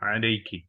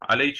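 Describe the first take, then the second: First: The word ends with a k sound plus vowel. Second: The word ends with a ch sound. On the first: The standard greeting to a woman. "अगर मुअन्नस है तो उसको क्या बोलेंगे? अस्सलामु अलैकी" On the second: A dialect form between the two sounds. "जो काफ और सीन के बीच में हो"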